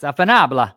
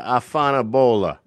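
First: Afanabla said as ah-fah-NAH-blah; corrected pronunciation. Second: Afanabola, a first unsure try at the Italian slang; attempt at afanabola. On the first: Host corrects the guest's Italian slang, afanabla said firmly. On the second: Guest tries to say Afanabola, unsure of the word. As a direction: sound out afanabola hesitantly. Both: Shown as a demonstration. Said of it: "No, it's afanabla".

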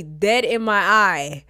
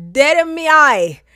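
First: Said in the usual way. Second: Loud, high indignant repeat; emphatic outrage. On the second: Real, not acted. Storyteller stressing the affront to listeners, loud indignant repeat. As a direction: blast it out, much higher and louder.

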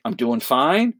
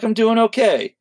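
First: Said in the usual way. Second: "okay" lifted high with a falling end; higher okay. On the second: Shown as a demonstration. Tom's second stock answer, said up high and falling. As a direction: say "I'm doing okay" up high, then let it drop. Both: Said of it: "only two real answers".

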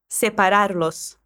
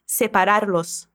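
First: Separarlos said slowly for repeating; slow and clear. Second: Separarlos slowly, los at the end clear. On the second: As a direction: spell out Separarlos. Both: Shown as a demonstration. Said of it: "esse los no final do verbo".

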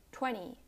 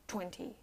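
First: "twenty" like "twenny"; silent T. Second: "twenty" with a clear second T; T sounded. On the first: Teacher showing American English, "twenty" with silent T. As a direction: drop the second T in "twenty". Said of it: "the T is silent". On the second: Teacher showing the wrong way, "twenty" with full T. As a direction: release the T after N in "twenty". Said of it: "not twenty". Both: Shown as a demonstration.

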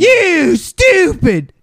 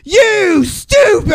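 First: High, slow, dim-witted jeer; hammed-up dumb ballplayer insult; mock caveman voice. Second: High, slow, shouted dim-witted jeer; hammed-up dumb ballplayer yelling; mock caveman shout. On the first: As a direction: drawl it like a dumb brute. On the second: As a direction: yell it like a dumb brute. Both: Mock dumb batter retort.

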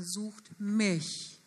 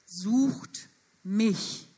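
First: Sucht mich drawn out very slowly, mich held with a falling tune; slow right down and land on mich; stretched sucht mich, weight falling on mich; slow stress on mich. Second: Sucht pressed out slowly and firmly; stress on sucht. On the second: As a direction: lean on the word Sucht, then let mich fall. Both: Shown as a demonstration. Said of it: "Die Betonung ist einmal auf sucht".

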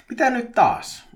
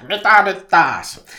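First: High, loud exasperated cry; turhautunut huuto. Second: Very loud, slow frustrated yell; turhautunut huuto. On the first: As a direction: call out, fed up at another interruption. (korkea turhautunut huudahdus) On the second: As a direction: bellow it in drawn-out exasperation. (kova, venytetty turhautunut huuto) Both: A narrator's reading. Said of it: "Petri huusi turhautuneena".

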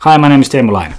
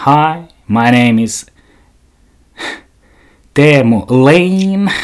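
First: Said in the usual way. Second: Slow, drawn-out English self-introduction; imitating English introduction. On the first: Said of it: "Miksei voi olla Laine?". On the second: Imitating the podcaster introducing herself in English, slow. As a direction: stretch it out like a nervous podcaster. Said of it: "hän esittelee itsensä aluksi tälleen".

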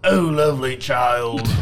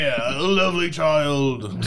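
First: Shrek attempt, failed. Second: Hammed-up Donkey impression. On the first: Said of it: "I can't do Shrek". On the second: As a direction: switch to Donkey instead. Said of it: "I'll do Donkey".

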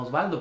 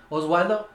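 First: "Osvaldo" with a clear V, no W glide. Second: "Oswaldo" with a W glide, questioning rise. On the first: Shown as a demonstration. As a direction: correct it to "Osvaldo", V in the middle. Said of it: "por eso lo digo como tal". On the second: Retold or imitated. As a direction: echo the mistaken "Oswaldo", W in the middle. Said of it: "me dicen".

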